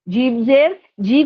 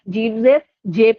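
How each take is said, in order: First: The syllable ends in an 'ee' vowel. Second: The syllable ends in an 'ay' vowel. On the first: The speaker calls it right. "को क्या पढ़ा जाता है?" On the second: The speaker calls it wrong. "पढ़ लेते हैं"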